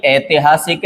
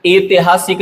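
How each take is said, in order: First: ऐतिहासिक starting on a wide ai, ai-ti-haa-sik; correct pronunciation. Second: ऐतिहासिक starting on a pure e, e-ti-haa-sik; wrong pronunciation. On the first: Teacher correcting it, ऐतिहासिक said with initial ai. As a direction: open ऐतिहासिक with ai. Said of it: "ऐतिहासिक है". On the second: Teacher showing the mistake, ऐतिहासिक said with initial e. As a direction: open ऐतिहासिक with e as in etihasik. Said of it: "नहीं है". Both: Shown as a demonstration.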